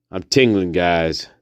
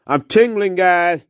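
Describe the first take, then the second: First: Said in the usual way. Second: High-pitched put-on voice; comic high echo. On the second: Guide echoing the tingling catchphrase to viewers, high voice. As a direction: repeat it as the high sidekick.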